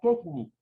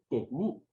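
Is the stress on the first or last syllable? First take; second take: first; last. First: The stress is on the first syllable. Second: The stress is on the last syllable. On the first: The speaker calls it wrong. "Si yo la pronuncio como grave, diría quechni" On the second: The speaker calls it right. "Tiene que decir quechni"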